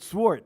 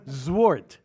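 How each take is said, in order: First: The name begins with an s sound. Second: The name begins with a z sound. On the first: The speaker calls it wrong. "not Wart, Swart" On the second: The speaker calls it right. "you gotta put the Z in there"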